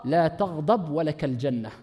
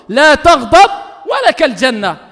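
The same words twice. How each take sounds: First: Low, quiet, slow; hushed. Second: Loud, slow, stretched words; emphatic proclamation. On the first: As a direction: murmur the promise. Soft take before loud repeat. (murmure lent et grave) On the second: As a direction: proclaim it to the crowd. Repeated forcefully after quiet take. (proclamation forte et lente) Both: Acted.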